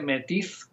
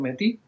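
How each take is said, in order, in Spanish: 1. El nombre se lee como se escribe. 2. El nombre se dice como lo dice su gente. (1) "se escribe Métis" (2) "pero ellos pronuncian Métis"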